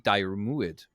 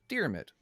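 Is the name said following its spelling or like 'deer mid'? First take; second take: as spelled; deer mid. First: The name is sounded out following its spelling. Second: The name sounds like the words deer mid. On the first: The speaker calls it wrong. "if you were to pronounce that how it's spelled" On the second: The speaker calls it right. "It's more pronounced like like deer mid"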